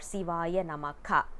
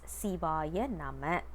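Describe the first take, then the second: First: The last word ends with an added 'ka' syllable. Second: The last word ends plainly on 'ma'. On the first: It sounds like calling someone's name. The speaker calls it wrong. "We are not supposed to uh, pronounce it as" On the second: It works as a mantra. The speaker calls it right. "it must be said as"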